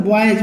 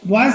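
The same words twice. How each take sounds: First: Put-on बॉयज with a J at the end, "boyej"; सही उच्चारण. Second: Put-on बॉयज ending in an S sound, "boys"; गलत उच्चारण. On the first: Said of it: "बोला जाता है". (बॉयज के अंत में "ज" की आवाज़) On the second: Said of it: "नहीं बोला जाता". (बॉयज के अंत में "स" की आवाज़) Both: Shown as a demonstration.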